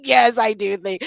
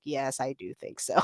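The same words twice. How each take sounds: First: Said in the usual way. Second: Low, quiet, dry agreement; deadpan sarcasm. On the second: Retold or imitated. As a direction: drop the voice and flatly concede. Sarcastic reply to boss.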